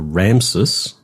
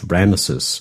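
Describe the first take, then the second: First: The name is said with two syllables. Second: The name is said with three syllables. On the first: It names the pharaoh. "the statues are Ramses" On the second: It names the city. "But the city is Ramesses"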